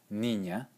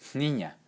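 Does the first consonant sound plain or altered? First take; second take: plain; altered. First: The first consonant is a plain n. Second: The first consonant sounds changed from plain n. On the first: It refers to one girl. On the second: It refers to several girls.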